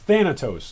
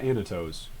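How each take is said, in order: First: The name begins with a th sound. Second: The name begins with a vowel sound. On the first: The speaker calls it right. "It's Thanatos" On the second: The speaker calls it wrong. "not Anatos"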